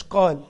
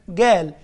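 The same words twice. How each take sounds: First: "قال" with a clear q sound as in standard Arabic; standard qaf. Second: "جال" said with a hard g instead of q, loud; Upper Egyptian qaf as g. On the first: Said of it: "مش قال". (نطق "قال" بالقاف الفصحى الواضحة) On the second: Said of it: "يعني مثلا يقول لك". (نطق "جال" بالجيم الصعيدية بدل القاف بصوت عالٍ) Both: Shown as a demonstration.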